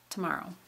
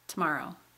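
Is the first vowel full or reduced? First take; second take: reduced; reduced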